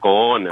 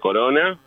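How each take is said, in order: First: The r is a throaty, guttural sound. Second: The r is a light tongue tap.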